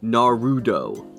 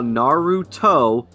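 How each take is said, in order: First: The middle consonant sounds like a d. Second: The middle consonant is a clear t sound. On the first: The speaker calls it wrong. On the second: The speaker calls it right.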